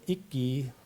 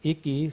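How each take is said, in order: First: The word is said with the accent. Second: The word is said without the accent. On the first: "iki con acento" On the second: "si es así"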